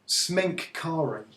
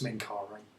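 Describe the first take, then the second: First: Every syllable of the name is said clearly. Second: The name is said quickly with syllables run together. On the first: "if I'm really trying to pronounce it clearly" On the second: "that usually collapses for me to just"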